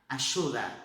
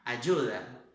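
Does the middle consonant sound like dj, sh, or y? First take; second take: sh; dj. First: The middle consonant is a sh sound. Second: The middle consonant is a dj sound. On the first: This is how it is said in Argentina. "na Argentina som é de C H" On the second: This is how it is said in other countries. "outros países o som de, de um D misturado com um J"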